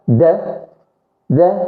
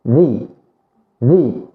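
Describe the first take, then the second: First: It is said with a short, weak 'uh' vowel. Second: It is said with a long 'ee' vowel. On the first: A consonant follows the word. "إذا جا من وراه حرف متحرك بمعنى consonants، كاين كيتنطق د د" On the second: A vowel follows the word. "ولا جا من وراه حرف ها علة اللي هو vowel ... كيتنطق ذي ذي"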